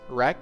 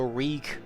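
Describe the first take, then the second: First: The vowel is a short 'e' sound. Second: The vowel is a long 'ee' sound. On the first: The speaker calls it wrong. "not wreck" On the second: The speaker calls it right. "how to pronounce the word wreak"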